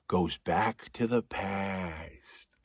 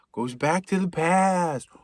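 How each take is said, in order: First: Slow, low whisper; a slow, eerie whispered goes back to the past; spooky whisper. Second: Slow, mock-dramatic repeat; a hammed-up spooky goes back to the past; dramatic echo. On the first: Acted. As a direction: hush it like a ghost story. Spooky repeated narration, whispered. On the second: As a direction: intone it like a movie trailer.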